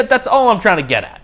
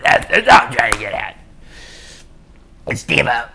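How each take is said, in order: First: Said in the usual way. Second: Rough, noisy put-on voice; hammed-up impression in a rasping voice; Steve-O. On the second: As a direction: do a bad celebrity impression. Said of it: "my shitty Steve-O impression".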